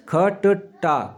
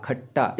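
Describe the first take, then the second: First: ख ट टा spelled out very slowly; teacher spelling ख ट टा, very slowly; syllable breakdown. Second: खट्टा said whole, lower and softer, ट doubled; खट्टा blended after the spelling; blended word. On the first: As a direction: split ख ट टा apart slowly. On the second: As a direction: join it into खट्टा quietly. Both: Shown as a demonstration. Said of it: "क्या बनते हैं?".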